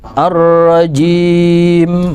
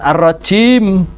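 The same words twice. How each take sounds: First: The j is a clear, voiced j sound. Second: The j drifts toward a voiceless ch sound. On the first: The speaker calls it right. "Ar ar-rajim" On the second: The speaker calls it wrong. "Jangan ar-rajim"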